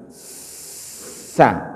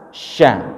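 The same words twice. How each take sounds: First: "Sa" with the tongue tip behind the front teeth; sin sound. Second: "Sya" from the middle of the tongue against the palate; shin sound. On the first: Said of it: "Ujung lidah". ("Sa" dengan ujung lidah di belakang gigi seri) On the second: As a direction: shape "Sya" with the mid tongue. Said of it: "tengah lidah". ("Sya" dengan tengah lidah menyentuh langit-langit) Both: Shown as a demonstration.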